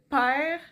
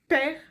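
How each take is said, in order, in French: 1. La voyelle est longue, comme deux voyelles. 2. La voyelle est courte et simple. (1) "nous on va dire père" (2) "comme à la française, qui est très court"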